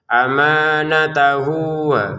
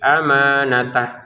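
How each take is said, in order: First: The word ends with a lengthened 'hu' sound. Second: The word ends abruptly on 'h' without a vowel. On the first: The recitation continues into the next word. "kalau kita gabungin di sini panjang dua harokat" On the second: The recitation stops at this word. "misalkan berhenti di sini, enggak ada panjang sama sekali"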